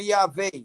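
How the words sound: It is said in the modern Hebrew way. "no hebraico moderno"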